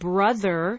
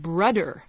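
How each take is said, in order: First: The middle consonant is a voiced TH sound. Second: The middle consonant is a D sound.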